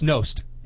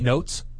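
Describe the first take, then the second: First: The name ends with an s then t sound. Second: The name ends with a t then s sound. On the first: The speaker calls it right. "it's Nost" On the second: The speaker calls it wrong. "What do I say? Notes"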